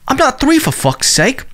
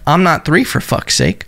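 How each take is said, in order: First: It is said in the quoted man's accent. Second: It is said in the speaker's own accent.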